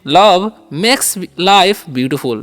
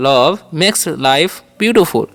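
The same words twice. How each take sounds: First: "Love makes life beautiful" drawn out word by word; very slow model. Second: "love makes life beautiful" repeated slowly, falling at the end. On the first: Teacher modelling an English sentence very slowly. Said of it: "ऐसे भी बोल सकते हैं". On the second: Teacher repeating the English sentence slowly. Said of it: "ऐसे बोल सकते हैं". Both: Shown as a demonstration.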